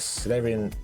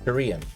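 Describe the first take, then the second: First: The name is said with an L sound. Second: The name is said without an L sound. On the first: The speaker calls it wrong. "Not Salarian, it's not an L in it" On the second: The speaker calls it right. "it's not an L in it"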